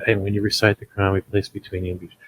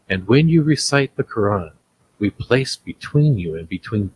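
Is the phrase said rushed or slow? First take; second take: rushed; slow. First: It is said quickly and flatly, rushing through. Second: It is said slowly with expressive inflection. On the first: The speaker is not focusing on the meaning. The speaker calls it wrong. "Are you just trying to verbalize fast through it?" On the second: The speaker is reflecting on the meaning. The speaker calls it right. "when you take the time and say ... You hear my inflection?"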